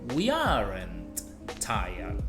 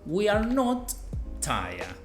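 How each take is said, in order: First: 'Are not' is shortened into one word. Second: 'Are not' is said as two full words. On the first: "puedo usar la contracción" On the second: "agregar el not al lado del are"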